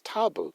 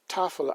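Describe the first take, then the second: First: The middle consonant is a b sound. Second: The middle consonant is an f sound. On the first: "is actually pronounced tabel, T A B L" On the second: "that's the T A F L"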